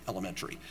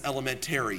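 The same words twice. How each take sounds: First: Elementary said el-e-MEN-tree, low and soft; proper pronunciation. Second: Elementary said el-e-men-TAIR-ee; New York pronunciation. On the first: Preacher quotes mother's usual word, elementary properly said el-e-MEN-tree. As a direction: say elementary with a short "tree" ending. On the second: Preacher jokes on mother's New York speech, elementary said el-e-men-TAIR-ee. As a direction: say elementary with a full "tary" ending. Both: Retold or imitated. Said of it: "still pronounces it properly".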